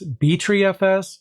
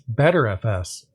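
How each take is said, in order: First: The name starts with the letters B tree. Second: The name starts with the word better. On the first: "I've actually heard of it pronounced as BTreeFS" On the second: "as well as BetterFS"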